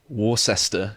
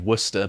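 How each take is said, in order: First: The name is pronounced the American way. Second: The name is pronounced the British way. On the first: The speaker calls it wrong. "I think you pronounce it Worcester in the United States" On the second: The speaker calls it right. "that should be Worcester"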